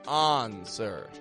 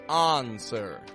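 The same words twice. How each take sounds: No difference in how they are said.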